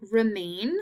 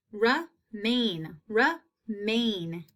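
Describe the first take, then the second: First: Said in the usual way. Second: Remain in two separate beats; split into syllables. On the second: Shown as a demonstration. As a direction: pause between re and main in remain. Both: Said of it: "long A in that second syllable".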